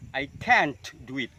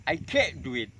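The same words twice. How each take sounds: First: Can't stressed, its T audibly popped; released final t. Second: Can't with the T stopped, not popped; held final t. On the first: Teacher giving an example sentence, T released in can't. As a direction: pop the T in can't before moving on. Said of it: "Itu contoh yang dilutupkan". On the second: Teacher giving the second version in a sentence, T held in can't. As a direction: swallow the T in can't, straight into "do". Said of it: "dengan cara menahan huruf T". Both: Shown as a demonstration.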